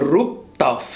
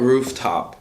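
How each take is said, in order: First: "Rooftop" said as "Rooptof"; swapped F and P. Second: Said in the usual way. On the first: Retold or imitated. Friend naming the club, "Rooftop" pronounced "Rooptof". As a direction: swap the sounds in "Rooftop", P in the middle, F at the end. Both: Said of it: "you change every F into a P".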